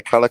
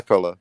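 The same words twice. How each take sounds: First: "color" said as collar, open AH vowel; collar, not color. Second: "color" with a short UH vowel; color, not collar. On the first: Correcting the collar mix-up, "color" with an AH as in collar. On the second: Correcting the collar mix-up, "color" with a short UH. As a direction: keep the first vowel of "color" short, as in cup. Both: Shown as a demonstration.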